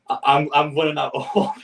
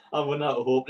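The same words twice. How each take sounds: First: A real laugh breaking into the words; laughing in disbelief. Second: Said in the usual way. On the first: Real, not acted. Fan losing hope at the draw, laughing. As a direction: laugh it out at a hopeless cup draw. Reacting to a bad cup draw.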